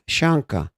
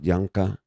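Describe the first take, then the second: First: The name starts with a sh sound. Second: The name starts with a Y sound. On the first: "when Argentines, they go sh" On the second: "Yanka would be double L, Yanka"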